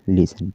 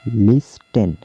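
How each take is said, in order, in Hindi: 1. बीच में टी की आवाज़ साइलेंट है। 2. बीच में टी की आवाज़ बोली जाती है।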